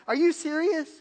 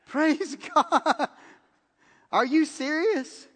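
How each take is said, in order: First: Habitual are you serious. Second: High, slow, laughing praise and disbelief; thrilled, can't believe the gift; overjoyed disbelief. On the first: Shown as a demonstration. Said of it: "my first reaction is". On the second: Retold or imitated. To the friend giving him her car, high thrilled disbelief.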